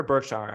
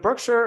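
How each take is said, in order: First: Berkshire, second syllable opened to "shar"; Berkshire ending in "shar". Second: Berkshire, second syllable unstressed as "sher"; Berkshire ending in "sher". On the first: Offering co-host the other option, Berkshire ending in "shar". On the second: Asking co-host how to say it, Berkshire ending in "sher". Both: Shown as a demonstration. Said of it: "How do you say it?".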